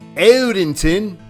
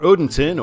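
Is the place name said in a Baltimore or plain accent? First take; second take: Baltimore; plain. First: The name is said in a Baltimore accent. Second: The name is said in a plain accent.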